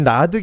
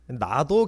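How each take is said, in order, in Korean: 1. 이 단어는 'eu' 모음으로 끝납니다. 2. 이 단어는 'o' 모음으로 끝납니다. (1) "헷갈리지 않기 위해서 그냥 나드 나드라고 그렇게 발음을 하겠습니다" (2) "나도라는 발음이 좀 더 맞겠습니다만은"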